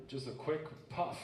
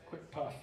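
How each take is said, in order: First: Slow coaxing. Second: Said in the usual way. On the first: Shown as a demonstration.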